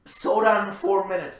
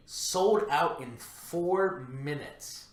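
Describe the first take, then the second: First: Louder, higher, hammered home; loud emphasis. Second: Slow, deliberate, weighty delivery; slow emphasis. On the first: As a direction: punch it out loudly. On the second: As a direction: drag out each word for effect. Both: Acted. Repeated for emphasis.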